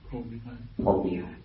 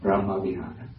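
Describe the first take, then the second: First: It is said in a Lao pronunciation. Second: It is said in a Cambodian pronunciation. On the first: "And in Laos" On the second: "in Cambodia"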